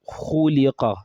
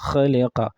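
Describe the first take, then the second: First: The first vowel is rounded with lips forward. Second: The first vowel is open and unrounded. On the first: The speaker calls it right. "your lips must come forward" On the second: The speaker calls it wrong. "You cannot say khaliqa"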